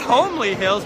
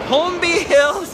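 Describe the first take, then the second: First: The first word sounds like 'homely', without a b. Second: The first word sounds like 'Holmby', with a b. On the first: The speaker calls it wrong. "Not Homely Hills" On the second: The speaker calls it right.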